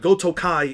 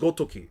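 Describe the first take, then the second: First: The word ends with an 'eye' sound. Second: The word ends with an 'ee' sound. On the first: The speaker calls it wrong. "did not say it right. It's not Gotokai" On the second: The speaker calls it right. "it's Gotoki"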